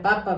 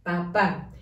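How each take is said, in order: First: Papa with stress on the first syllable, PA-pa; papa stressed on the opening syllable, not on the final a; wrong stress papa. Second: Papá. with stress on the final á, pa-PÁ; Papá. with the final á clearly stressed; stress on the last a. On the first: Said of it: "porque si no dijera". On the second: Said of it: "Acento en la última A". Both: Shown as a demonstration.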